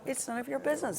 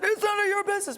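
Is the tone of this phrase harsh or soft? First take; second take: soft; harsh. First: It is said in a soft, gentle tone. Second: It is said in a harsh, forceful tone. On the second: "Before you would have said"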